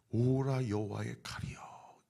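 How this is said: It is read gently and calmly. The speaker calls it wrong. "제가 지금 너무 젠틀하게 오라 여호와의 칼이여 이렇게 읽었는데"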